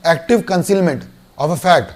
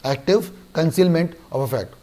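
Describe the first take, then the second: First: Very slow, each word spaced out; slow term dictation. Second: Slow dictation. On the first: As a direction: spell out "active concealment of a fact" word by word for notes. ("active concealment of a fact" धीरे-धीरे, हर शब्द अलग बोलें) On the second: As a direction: let "active concealment of a fact" sink in slowly. ("active concealment of a fact" धीरे और धीमी आवाज़ में) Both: Shown as a demonstration. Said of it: "दो वर्ड पे ध्यान दें".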